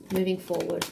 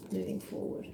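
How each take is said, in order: First: Said in the usual way. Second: Very soft, breath-only whisper; hushed, private repetition; whispered echo. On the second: Real, not acted. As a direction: repeat it to yourself in a whisper. Card message echoed to herself.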